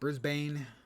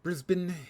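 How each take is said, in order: First: The name is pronounced the Bay Area way. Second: The name is pronounced the Australian way. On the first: "In the Bay Area, it's pronounced Brisbane" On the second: "They pronounce it Brisbane"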